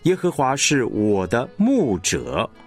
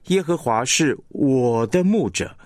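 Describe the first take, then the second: First: The stress falls on 牧者. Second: The stress falls on 我. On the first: He is emphasized as being our shepherd. "你会听到这个牧者被强化了" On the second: The relationship between us and God is emphasized. "你会听出来这个我是被强化了"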